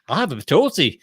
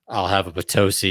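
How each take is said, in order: First: It is said in a put-on Wisconsin accent. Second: It is said in a plain, neutral accent.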